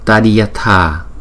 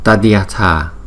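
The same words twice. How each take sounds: No difference in how they are said.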